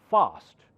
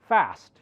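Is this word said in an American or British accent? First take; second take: British; American. First: The word is said in a British accent. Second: The word is said in an American accent. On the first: "British call it fast" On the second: "Americans call it fast"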